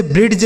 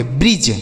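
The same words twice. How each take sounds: First: "ब्रिड्ज" with d sounded before the j; wrong pronunciation with D. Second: "ब्रिज" with no d, just j at the end; lower, falling "ब्रिज", d left silent; silent D pronunciation. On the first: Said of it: "इसे ब्रिड्ज नहीं पढ़ेंगे". ("ब्रिड्ज" में ड का उच्चारण करके) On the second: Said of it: "डी दोस्तों silent होगा". ("ब्रिज", ड साइलेंट रखकर) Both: Shown as a demonstration.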